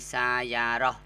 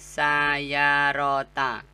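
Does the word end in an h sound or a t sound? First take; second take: h sound; t sound. First: The word ends with an h sound. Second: The word ends with a t sound and vowel. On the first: The reading stops on this word. "kalau dihentikan bacanya menjadi sayaroh" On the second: The reading continues on to the next word. "kalau dibaca berlanjut dia dibaca sayarota"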